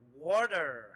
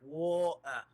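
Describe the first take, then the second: First: The middle T sound is pronounced. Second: The middle T sound is dropped.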